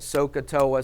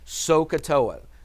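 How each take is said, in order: First: It is said quickly. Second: It is said at a normal pace.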